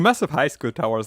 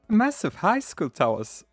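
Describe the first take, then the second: First: The speaker's natural deep voice is used. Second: A raised, youthful put-on voice is used. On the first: "let's just give him my voice" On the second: "let me try to mimic teenager voices"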